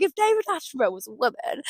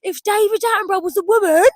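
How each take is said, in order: First: Said in the usual way. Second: Higher and louder, giddy repeat; giddy high-pitched repetition; excited repeat. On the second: Real, not acted. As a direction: say it again thrilled with the idea.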